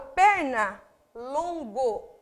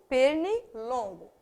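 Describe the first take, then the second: First: It is said with two stressed syllables. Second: It is said with one stressed syllable. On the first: Two separate words are joined side by side. "eu tenho duas tonicidades" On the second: The words are fused into a single word. "Quando eu faço a união, eu tenho uma só"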